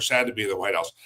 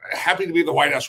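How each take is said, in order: First: Low, dropped, mildly downcast delivery; sad. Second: Mildly upbeat, lifted contrast; happy. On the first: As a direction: let the voice sink as if dejected. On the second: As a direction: say it with a touch of cheer. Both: Shown as a demonstration. Contrasts happy and sad visitors.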